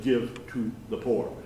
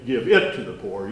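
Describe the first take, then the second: First: "Give", then "to", set apart softly; softer, deliberate "Give to", with small gaps; careful correct quote. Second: "it" run straight on after "Give"; brisk "Give it", no pause before "to"; misquote with IT. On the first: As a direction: space out "Give to" word by word. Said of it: "He said, "Give to the poor". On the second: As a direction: say "Give it" as one quick, firm unit. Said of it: "this is misquoted a lot. He didn't say". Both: Shown as a demonstration.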